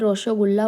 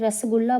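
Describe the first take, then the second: First: The word begins with an o vowel and sh sound. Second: The word begins with a plain s sound. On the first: This is how it is said in Bengal. "Bengal में उसे रोशोगुल्ला बोला जाता है" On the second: This is how it is said in Delhi and Punjab. "Hindi में हम दिल्ली में, पंजाब आदि में रसगुल्ला बोलते हैं"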